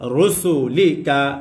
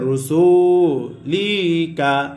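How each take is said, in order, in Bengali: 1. স্বরধ্বনিগুলো ছোট এবং দ্রুত পড়া হয়। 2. একটি স্বরধ্বনিকে লম্বা করে টানা হয়। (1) "এই শব্দটা কি পুরোটাই হরকত" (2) "এইভাবে কি হবে না, কোন টান হবে না"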